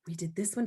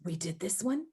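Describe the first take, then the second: First: A delighted gasp, then the line; excited gasp. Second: Said in the usual way. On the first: Shown as a demonstration. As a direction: gasp as if pleasantly surprised. Gasp before the third take.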